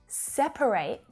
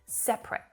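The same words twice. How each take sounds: First: It is said with three syllables. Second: It is said with two syllables. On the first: To put things in groups. "as a verb, separate, we hear three syllables" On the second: Not together. "usually you just hear it pronounced with two syllables"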